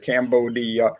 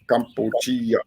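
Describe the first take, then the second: First: It is said with the usual English pronunciation. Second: It is said with the local Khmer pronunciation. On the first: "they don't pronounce it Cambodia" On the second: "as they pronounce it in their language"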